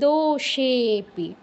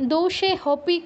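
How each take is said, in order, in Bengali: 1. 'e'-কে 'h' ছাড়াই দীর্ঘ করে টানা হয়। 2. 'pi'-এর আগে একটি 'h' ধ্বনি উচ্চারিত হয়। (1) "এর আগের অক্ষরটা দীর্ঘ উচ্চারণ করছি" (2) "কেউ বলবো না"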